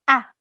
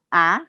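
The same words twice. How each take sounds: First: The syllable is said firmly, like an angry command. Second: The syllable is said hesitantly, without firmness. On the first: The speaker calls it right. "Jadi benar-benar marah atau kita berbicara tegas" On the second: The speaker calls it wrong. "tidak boleh ragu-ragu, tidak boleh bi kita bilangnya ... Nggak boleh"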